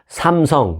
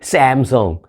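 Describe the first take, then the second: First: The name is said with a Korean-style vowel. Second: The name is said with an English-style vowel. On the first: This is the native Korean pronunciation. "삼성이란 우리 한국식 발음" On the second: This is how people around the world say it. "전 세계 사람들이 아는"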